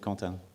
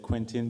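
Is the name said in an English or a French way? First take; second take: French; English. First: The name is said with a French pronunciation. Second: The name is said with an English pronunciation. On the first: This is how it is said in France. "but in France we say Quentin" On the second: This is how English speakers usually say it. "most of the time, English people say Quentin"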